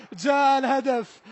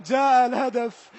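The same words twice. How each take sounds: The two takes are said the same way.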